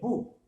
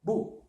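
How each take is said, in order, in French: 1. La voyelle est courte. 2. La voyelle est courte.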